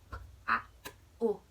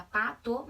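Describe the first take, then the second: First: "p", "a", "o" said as separate sounds with pauses; sounding out phonemes. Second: Said in the usual way. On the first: Shown as a demonstration. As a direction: break "pato" into its single sounds, one by one. (fonemas de "pato" separados: p, a, o) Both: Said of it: "ela escuta pato, mas é".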